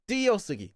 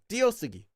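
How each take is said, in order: No difference in how they are said.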